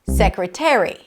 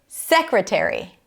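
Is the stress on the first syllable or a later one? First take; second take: later; first. First: The stress is on a later syllable. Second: The stress is on the first syllable. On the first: The speaker calls it wrong. "not secretary" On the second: The speaker calls it right. "First syllable"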